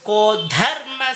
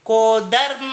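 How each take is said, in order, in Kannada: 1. dharma ದಲ್ಲಿನ d ಉಸಿರಿನೊಂದಿಗೆ ಹೇಳಲಾಗುತ್ತದೆ. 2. dharma ದಲ್ಲಿನ d ಉಸಿರಿಲ್ಲದೆ ಹೇಳಲಾಗುತ್ತದೆ. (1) "ಆ ಧಾನಲ್ಲಿ ಮಹಾಪ್ರಾಣ ಇದೆ" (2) "ಕೋ ಧರ್ಮ ಅಲ್ಲ"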